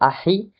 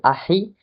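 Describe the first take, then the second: First: The h sound comes between the two vowels. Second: The h sound comes between the two vowels.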